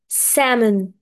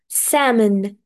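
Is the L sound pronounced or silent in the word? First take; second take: silent; silent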